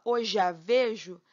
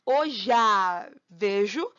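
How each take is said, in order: First: Hoje a vejo with e and a blended into one syllable; slow, linked hoje a vejo; syllables run together. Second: Hoje a vejo very slow and louder, je and a merged in one syllable; slow, didactic Hoje a vejo, vowels fused; exaggerated elision. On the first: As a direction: glide hoje a as one sound. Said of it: "como se eu abrisse a boca uma vez só". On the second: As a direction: overdo the blend of hoje a. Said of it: "bem didática aqui, sem vergonha nenhuma". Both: Shown as a demonstration.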